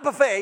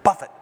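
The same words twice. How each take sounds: First: The word ends with a long 'ay' sound. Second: The word ends with a short 'it' sound. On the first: A self-serve spread of food. The speaker calls it wrong. "Not buffet. He's not going to take it old country" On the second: To strike or beat someone. The speaker calls it right. "He's going to try to beat you up"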